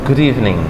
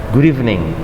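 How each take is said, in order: Both takes have the same delivery.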